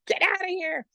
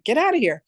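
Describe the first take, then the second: First: Much higher, squealed get outta here; squealing disbelief. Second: Raised, lively get outta here; surprised disbelief. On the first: To Wendy hearing about Master Ko, squealing high in disbelief. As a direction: squeal it in gleeful shock. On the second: To her friend Wendy, amazed, voice lifted in surprise. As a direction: react to the news with happy disbelief. Friend also trained in pranic. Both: Retold or imitated.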